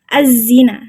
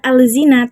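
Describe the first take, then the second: First: The l merges into a doubled z. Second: An l sound is heard before the z. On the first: The speaker calls it right. "tapi az-zina. Dia langsung masuk ke huruf zai" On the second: The speaker calls it wrong. "Lam tidak dibaca langsung ke huruf zai. Bukan al-zina"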